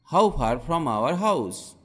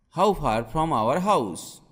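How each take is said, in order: Both takes have the same delivery.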